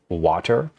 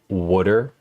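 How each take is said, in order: First: It is said with a standard accent. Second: It is said with a Philadelphia accent. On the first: "instead of water" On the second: "I intentionally started saying water ... That's how people say it here"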